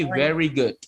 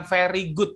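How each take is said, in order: First: Very good dibaca veri gud; very good dengan v; correct very good with v. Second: Very good dibaca feri gut; very good dengan f; wrong very good with f. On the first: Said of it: "tapi very good". (very good diucapkan veri) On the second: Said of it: "bukan very good tapi very good". (very good diucapkan feri) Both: Shown as a demonstration.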